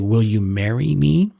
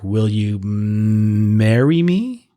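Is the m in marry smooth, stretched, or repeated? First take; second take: smooth; stretched. First: The whole sentence is said fluently. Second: The m sound in marry is stretched out.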